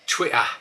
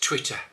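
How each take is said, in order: First: The middle t sounds are dropped. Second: The middle t sounds are clearly pronounced. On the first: This is the common way elsewhere in England. The speaker calls it wrong. "We never ever do that" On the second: This is the local way. The speaker calls it right. "It's always Twitter"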